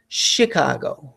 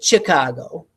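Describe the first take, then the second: First: The word begins with a soft sh sound. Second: The word begins with a hard ch sound. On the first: The speaker calls it right. "most of us say Chicago" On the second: The speaker calls it wrong. "I don't say Chicago"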